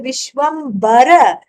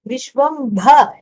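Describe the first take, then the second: First: The b sound has no breathy puff after it. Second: The b sound has a breathy puff after it. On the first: One for whom the whole universe is clothing. "which is not aspirated" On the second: One who fills up the whole universe. "it is the aspirated uh, uh, consonant bha"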